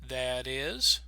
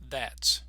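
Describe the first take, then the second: First: It is said as two separate syllables. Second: It is contracted into one single syllable. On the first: "two beats, two syllables" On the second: "they will only have one"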